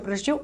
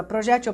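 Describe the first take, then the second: First: Quick "projetil", stressed on TIL; tônica na última. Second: Quick "projétil", stressed on JÉ; tônica na penúltima. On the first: ("projetil" rápido, tônica no TIL) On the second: ("projétil" rápido, tônica no JÉ) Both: Shown as a demonstration. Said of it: "as duas estão corretas".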